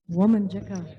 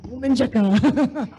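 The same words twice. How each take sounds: First: "Woman Jacka" with a clear WOH-mən JEK-ə; word modelled for repeating. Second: "Woman Jacka" copied as womin-jəkə, with a short i; learner's repeat. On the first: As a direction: model "Woman Jacka" evenly, stressing the first syllable. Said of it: "can you try saying it?". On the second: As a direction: echo the model of "Woman Jacka", a little raised, breaking into a laugh. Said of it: "I'm still learning myself". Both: Shown as a demonstration.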